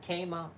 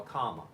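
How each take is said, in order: First: First syllable of Kama like "came"; Kama as KAY-muh. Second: First syllable of Kama like "calm"; Kama as KAH-muh. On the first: Offering the first option of a name, Kama said KAY-muh. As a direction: pronounce Kama with a long A. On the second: Offering the second option of a name, Kama said KAH-muh. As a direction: pronounce Kama with a broad "ah". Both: Shown as a demonstration. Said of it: "Is the first one or second".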